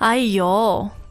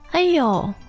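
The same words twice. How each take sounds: First: It sounds angry and frustrated. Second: It sounds mildly surprised.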